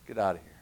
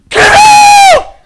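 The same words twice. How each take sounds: First: Lower, softer "Get out of here"; understated authoritative dismissal; calm quiet command. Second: Very high, very loud "Get out!"; hammed-up screaming command; all-out shout. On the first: Retold or imitated. Jesus quietly dismisses demon. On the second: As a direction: scream it at the demon. Disciples shouting at demon.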